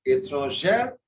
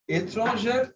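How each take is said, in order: First: ÉTRANGÈRE with an open E and sounded R; feminine form. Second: ÉTRANGÈRE said as étranger, closed "ay" in the last syllable; masculine form. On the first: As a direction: end ÉTRANGÈRE on a wide "air". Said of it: "étrangère is feminine". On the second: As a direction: make ÉTRANGÈRE the masculine, ending in a tight E. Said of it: "étrangère is masculine". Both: Shown as a demonstration.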